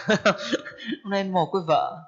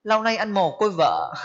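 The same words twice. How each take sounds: First: Slow line through a chuckle; laughing. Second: Said in the usual way. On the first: Acted. Storyteller amused at the widower's lament, laughing. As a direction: repeat the husband's lament, amused and drawn out.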